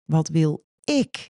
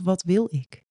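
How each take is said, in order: First: The stress falls on the word ik. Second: The stress is not on the word ik.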